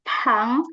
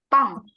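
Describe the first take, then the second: First: The first p is released with a puff of breath. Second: The first p is tense and has no breath. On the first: The speaker calls it wrong. "bukan pang" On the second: The speaker calls it right. "tapi pang, p-nya tebal"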